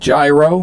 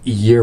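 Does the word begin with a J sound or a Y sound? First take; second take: J sound; Y sound. First: The word begins with a J sound. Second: The word begins with a Y sound. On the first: The speaker calls it wrong. "If you're going to pronounce it y- gyro, get the hell out" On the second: The speaker calls it right. "It's gyro"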